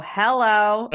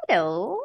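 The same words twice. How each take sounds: First: Imitating a guarded phone hello; wary of callers. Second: Imitating a sweet grandma's hello. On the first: Grandma answering an unknown caller, wary hello. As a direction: answer as if a bill collector is calling. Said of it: "answer like I was a, like a bill collector calling". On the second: Grandma realizing her grandchild is calling, sweet hello. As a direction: turn sweet on recognizing the caller. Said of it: "it was really sweet".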